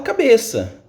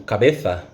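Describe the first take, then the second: First: The middle consonant is an s sound. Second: The middle consonant is a th sound. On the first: "ele vai falar cabeça" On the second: "no caso da Espanha, como por exemplo cabeça"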